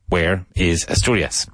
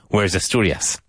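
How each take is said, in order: First: The words are said as three separate words. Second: The words run together like one word. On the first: "so there are three words here" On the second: "It sounds like one word"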